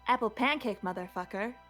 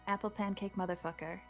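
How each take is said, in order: First: It is said forcefully, with lots of gumption. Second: It is said plainly, without much force.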